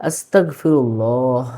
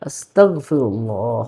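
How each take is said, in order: Both takes have the same delivery.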